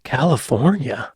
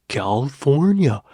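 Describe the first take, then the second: First: Said in the usual way. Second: Put-on Californian, words swallowed; swallowed Californian accent. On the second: Shown as a demonstration. Vlogger testing the video's California comparison, swallowed Californian accent. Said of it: "swallow their words like a Californian".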